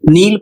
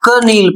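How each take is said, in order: First: The word begins with an n sound, no k. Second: The word begins with a k sound before n. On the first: The speaker calls it right. "तो सही पढ़ रहे हैं" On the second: The speaker calls it wrong. "तो आप गलत पढ़ रहे हैं"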